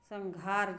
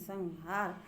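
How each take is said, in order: First: The middle consonant is a breathy gh sound. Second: The middle consonant is a plain h sound. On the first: The speaker calls it wrong. "घार नहीं" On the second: The speaker calls it right.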